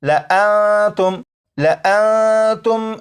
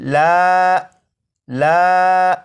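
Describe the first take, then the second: First: The extra alif is silent, so the vowel is short. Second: The extra alif is sounded as a long vowel. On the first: The speaker calls it right. "बल्कि" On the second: The speaker calls it wrong. "इस तरह नहीं पढ़ेंगे"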